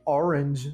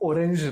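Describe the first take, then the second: First: The word is said with an English pronunciation. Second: The word is said with a Brazilian Portuguese pronunciation. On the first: "na pronúncia inglesa" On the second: "na pronúncia que a gente gosta de falar às vezes"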